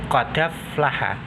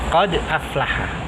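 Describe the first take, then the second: First: The d links straight into the following vowel. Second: A glottal stop separates qad from aflaha. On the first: The hamza's vowel is moved to the preceding consonant. "Harokatnya hamzah hilang, sehingga bacanya seperti tadi qadaflaha" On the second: This is the original reading. "Asalnya qad aflaha"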